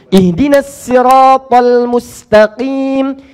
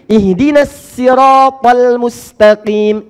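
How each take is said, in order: No difference in how they are said.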